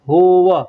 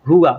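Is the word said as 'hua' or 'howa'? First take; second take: howa; hua. First: The word sounds like 'howa'. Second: The word sounds like 'hua'. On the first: The speaker calls it right. "लेकिन होवा" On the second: The speaker calls it wrong. "लोग हुआ कहते हैं, लेकिन हुआ नहीं होता है"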